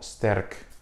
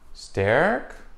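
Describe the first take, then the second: First: The r does not sound like an American r. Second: The r sounds like an American r.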